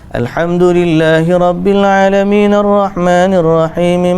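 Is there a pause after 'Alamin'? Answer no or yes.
no. The verses run together quickly without pauses. The recitation is rushed. The speaker calls it wrong. "tidak tidak laju. Tidak kata"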